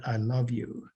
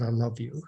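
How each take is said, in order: First: Soft, quiet, emotion rising; choked up. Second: Soft, quiet, heartfelt; tender I love you. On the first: Real, not acted. Retelling the widow's story, quietly choked up. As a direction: let the feeling catch in the words. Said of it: "I get emotional saying that". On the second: Retold or imitated. Husband at the plant gate to wife, soft and tender. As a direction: say it gently like a husband's goodbye. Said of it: "he reached over and said".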